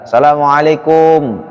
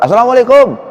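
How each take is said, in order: First: The greeting is said at an unhurried pace. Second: The greeting is said quickly and hurriedly.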